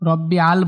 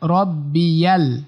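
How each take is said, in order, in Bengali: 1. শব্দটি দুটি আলাদা ভাগে ভাঙা হয়। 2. শব্দটি 'y' ধ্বনির মাধ্যমে মসৃণভাবে যুক্ত। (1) "রব্বি আল বলা যাবে না" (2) "ইয়া লামকে ধরছে"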